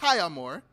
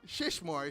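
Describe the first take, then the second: First: The first part ends with a vowel sound. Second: The first part ends with a 'sh' sound. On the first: The speaker calls it right. "it's Shia Moore" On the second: The speaker calls it wrong. "It's not Shishmore, So I was pronouncing it incorrectly"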